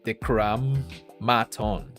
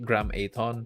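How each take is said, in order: First: A doubled M begins the syllable 'maton'. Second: A single M begins the syllable 'aton'. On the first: The speaker calls it right. "but it's like two M's, so it's like Decram Maton" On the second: The speaker calls it wrong. "If it's like a single M, I could pronounce it as Aton"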